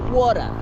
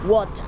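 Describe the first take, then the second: First: It is said in an American accent. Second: It is said in a Kenyan accent. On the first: "In in America, they say water" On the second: "So here in Kenya, we say water"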